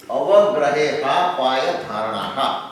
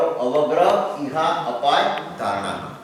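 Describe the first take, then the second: First: Slow chant with the words run together as "અવગ્રહે હા પાય ધારણાહા"; sutra run together. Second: Slow recital with a clear break after each of "અવગ્રહ ઇહા અપાય ધારણાહા"; words split apart. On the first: Teacher reciting the sutra to the class, slow and joined. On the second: Teacher splitting the sutra into its words for the class, slow and separated. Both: Shown as a demonstration. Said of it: "છૂટું પાડો".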